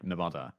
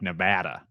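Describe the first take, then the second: First: It is said with a British-sounding vowel. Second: It is said with an American-sounding vowel. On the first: "Someone's having a massive go at me for pronouncing Nevada like Nevada" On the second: "it sounds like I'm faking an American accent, like Nevada"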